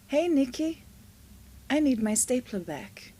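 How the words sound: It is said in a friendly, nice tone.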